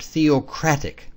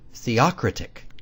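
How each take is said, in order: First: The stress pattern is the usual one for theocratic. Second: The stress pattern copies the word theocracy.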